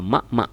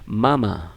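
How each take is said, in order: First: Each syllable ends in an abrupt stop. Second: The syllables flow together without a stop. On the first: The speaker calls it wrong. "Tidak boleh" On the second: The speaker calls it right. "yang tepat adalah membacanya mama"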